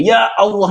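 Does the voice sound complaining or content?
complaining. It is said in a complaining, exasperated tone. The person is grumbling about their situation. The speaker calls it wrong. "sedang mengeluh kepada Allah"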